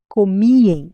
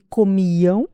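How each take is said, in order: First: The word ends with a nasal 'em' sound. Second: The word ends with a nasal 'ão' sound. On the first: This is a regional variant form. "realizada como em" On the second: This is the standard European Portuguese form. "Aquela terminação ão"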